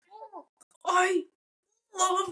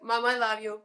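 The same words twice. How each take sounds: First: Strained, much higher, drawn-out I love; forced I love you. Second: Said in the usual way. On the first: Retold or imitated. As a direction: push the words out high and halting, half joking. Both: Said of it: "now I'm saying this with the, a little bit fun".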